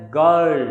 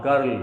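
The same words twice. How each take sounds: First: Put-on "girl" with no R sound; silent R. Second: Put-on "girl" with an audible R before the L; R sounded. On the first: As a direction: drop the R in "girl", straight to the L. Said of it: "it will be pronounced as". ("girl" में R silent) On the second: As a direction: pronounce the R in "girl". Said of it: "not girl". ("girl" में R का उच्चारण) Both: Shown as a demonstration.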